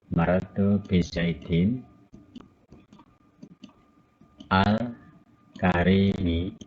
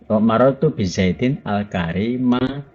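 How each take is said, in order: First: The word karim ends in an i vowel. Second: The word karim ends in an a vowel. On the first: The adjective follows the noun's case. "ini kalau ijba semua" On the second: The adjective is the object of an implied verb. "boleh juga dibaca nasab semua"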